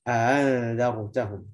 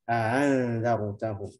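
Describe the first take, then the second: Both takes have the same delivery.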